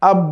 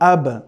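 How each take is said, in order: First: The final consonant stops flat without a bounce. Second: The final consonant is released with an echoing bounce. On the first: The speaker calls it wrong. "আব বলা যাবে না" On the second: The speaker calls it right. "Bouncing sound দিয়ে পড়তে হবে"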